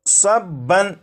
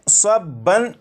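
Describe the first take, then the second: First: The word ends with an n sound. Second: The word ends with an n sound.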